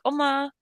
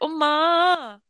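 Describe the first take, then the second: First: It is said plainly with a steady tone. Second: It is said whiningly with a wavering tone. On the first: Simply calling to get her attention. "if I'm calling her" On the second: Complaining to her like a child. "if I'm whining"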